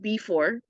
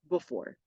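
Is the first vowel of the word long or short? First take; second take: long; short. First: The first vowel is said long and full. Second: The first vowel is said short and reduced. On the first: "I know that it's spelled before" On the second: "the E gets cut short"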